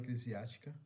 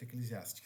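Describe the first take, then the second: First: The word is said in an altered, emphatic way. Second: The word is said in its standard, plain way. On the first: "Eu falo eclesiástica ... gosto de falar assim para dar ênfase" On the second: "ao certo eclesiástica"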